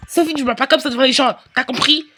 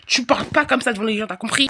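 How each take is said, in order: First: Fast, louder telling-off; sharp scolding. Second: Said in the usual way. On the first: Acted. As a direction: snap at the child in public. Mother scolds, repeated calmer. (la mère gronde sèchement, plus fort)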